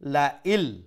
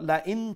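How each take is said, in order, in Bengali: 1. 'n' শব্দটি 'l' শব্দের সাথে মিশে যায়। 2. শেষে একটি 'n' শব্দ শোনা যায়। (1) "এখন কো আর নুনর সাউন্ড শোনা যাইতো নাই" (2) "লা ইন এন্ডে দি নুন সাউন্ড আছিল"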